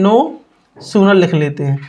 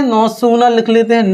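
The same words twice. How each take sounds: First: "no" then a pause, then "sooner" said low and slow; teacher dictating "no sooner" word by word to the class; slow dictation. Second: Said in the usual way. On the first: Shown as a demonstration. The teacher dictates "no sooner" slowly so students can write it. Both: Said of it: "तो पहले लिख ले".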